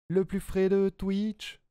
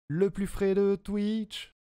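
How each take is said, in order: No difference in how they are said.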